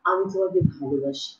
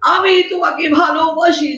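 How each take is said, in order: First: The line is spoken softly and quietly. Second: The line is spoken loudly and forcefully. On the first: The audience would not hear it. The speaker calls it wrong. "এটা তো আমি আস্তে বলব" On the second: The audience can hear it. The speaker calls it right. "জোরে, জোরে বলতে হয়"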